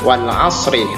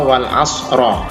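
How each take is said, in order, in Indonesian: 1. Kata terakhir berakhir dengan vokal i. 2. Kata terakhir berakhir dengan vokal a. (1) "Kita baca wal asri" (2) "atau wal asro"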